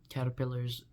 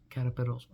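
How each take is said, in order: First: Said in the usual way. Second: "caterpillars" with its ending garbled; mispronounced caterpillars. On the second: Shown as a demonstration. Noticing own slip about butterflies, mispronounced "caterpillars". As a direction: repeat the slip on the end of "caterpillars". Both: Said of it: "I just called caterpillars caterpillars".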